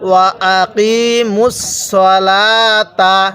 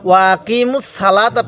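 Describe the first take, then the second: First: The first vowel of salata sounds heavy, like 'so'. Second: The first vowel of salata sounds light, like 'sa'. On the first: The speaker calls it right. "তাহলে কিভাবে পড়তে হবে?" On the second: The speaker calls it wrong. "ওয়া আকিমুস সালাতা পড়বেন না"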